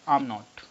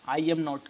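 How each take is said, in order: First: I and am merge into one short word. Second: I and am are said as two full words.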